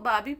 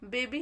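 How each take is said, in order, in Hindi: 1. पहला स्वर लंबी 'ah' ध्वनि है। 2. पहला स्वर 'ay' ध्वनि है। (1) "बहुत सारे बच्चे इसको बाबी पढ़ेंगे, लेकिन बाबी क्या है, गलत है" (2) "बेबी हमारा सही है"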